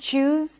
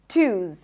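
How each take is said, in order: First: It starts with a CH sound. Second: It starts with an aspirated T sound. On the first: "Some people might even pronounce it as a ch sound" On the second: "Twos with a Z"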